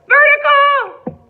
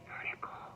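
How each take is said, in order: First: The word is shouted very loudly. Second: The word is whispered very quietly. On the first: "Let's shout it" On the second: "Let's whisper it"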